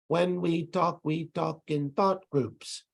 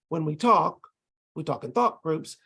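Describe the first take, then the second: First: It pauses after every single syllable. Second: It pauses only at the end of thought groups. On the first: The speaker calls it wrong. "they pause at the end of every syllable" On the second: The speaker calls it right. "We pause at the end of every little thought group"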